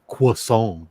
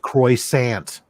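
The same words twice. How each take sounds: First: It starts with a 'kw' sound, like French. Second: It starts with a plain English 'kr' sound.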